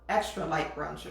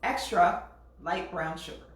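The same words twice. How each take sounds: First: Extra and light are grouped together as one unit. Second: Extra is set apart from light brown sugar. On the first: The sugar is a very light kind. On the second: More of the sugar is added.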